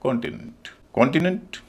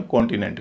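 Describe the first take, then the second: First: कॉन्टिनेंट stressed first, ending "nunt"; weight on "kon" of कॉन्टिनेंट, reduced tail; corrected pronunciation. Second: कॉन्टिनेंट with a full "nent"; common pronunciation. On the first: Teacher modelling it for students, corrected pronunciation. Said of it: "तो इसको बोला जाएगा". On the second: Teacher quoting our usual form, common pronunciation. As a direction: say कॉन्टिनेंट with clear vowels to the end. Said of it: "इसको भी हम कॉन्टिनेंट कहते हैं". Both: Shown as a demonstration.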